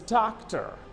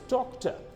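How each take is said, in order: First: The word is said in an American accent. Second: The word is said in a British accent.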